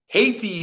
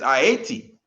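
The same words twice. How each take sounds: First: It is said the usual English way, Haiti. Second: It is said as the original form, Ayiti. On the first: This is the English form of the name. "is how we pronounce it in the English" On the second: This is the original form of the name. "but it's Haiti. A Y I T I"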